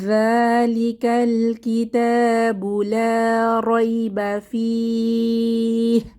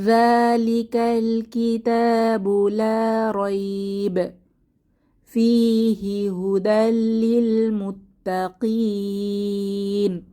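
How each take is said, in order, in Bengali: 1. কারী 'fih'-এর পরে থামেন, তারপর পড়া চালিয়ে যান। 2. কারী 'la rayb'-এর পরে থামেন, তারপর পড়া চালিয়ে যান। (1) "এখানে থেমে বাকিটা মিলিয়ে পড়বো" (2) "অথবা"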